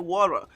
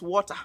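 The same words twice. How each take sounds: First: It is said in an American accent. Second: It is said in a British accent. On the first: "Americans say water" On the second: "We in the U K here is water"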